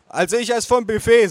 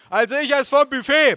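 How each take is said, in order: First: High, loud, slightly less strained; mother stating choice. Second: Very high, loud holler; bellowing aunt. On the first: Mother giving her order, raised voice. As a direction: announce it as the mother. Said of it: "sagte meine Mutter". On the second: Aunt chewing at table, bellowing. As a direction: holler it over everyone. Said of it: "brüllte meine Tante kauend". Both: A narrator's reading.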